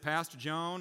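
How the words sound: It is said in a put-on accent. "I'm going to stop doing that accent"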